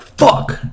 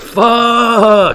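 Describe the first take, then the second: First: It sounds angry and annoyed. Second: It sounds glad and excited, like a greeting. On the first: Someone has made the speaker mad. "somebody could make you mad and you'll be like" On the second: Happy to see an old friend. "you could easily like roll up to an old friend and be like"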